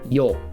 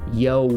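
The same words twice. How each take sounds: First: The vowel stays pure with no glide. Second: The vowel ends with a w-like glide. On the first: The speaker calls it right. "It's yo" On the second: The speaker calls it wrong. "I don't want to hear yo. Get rid of the W"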